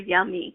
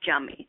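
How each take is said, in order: First: The word begins with a Y sound. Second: The word begins with a J sound.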